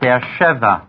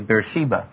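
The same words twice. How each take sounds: First: It is pronounced in a non-English way. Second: It is pronounced in an English way.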